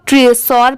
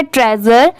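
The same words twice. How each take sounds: First: ट्रेसोर said "tre-sor", with s and full o; mispronounced with s. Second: ट्रेजर said "TRE-zer", with a voiced z; correct z sound. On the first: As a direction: give ट्रेसोर a hissed s and an "or" ending. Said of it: "ये wrong होगा". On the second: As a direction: buzz the middle of ट्रेजर, short ending. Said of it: "इसकी correct pronunciation है". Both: Shown as a demonstration.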